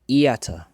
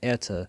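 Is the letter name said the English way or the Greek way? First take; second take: Greek; English. First: It is said with a Greek 'ee-ta' vowel. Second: It is said with an English 'ay-ta' vowel. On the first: "but in the um in the in the Greek is iata" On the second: "in the English pronunciation is eta"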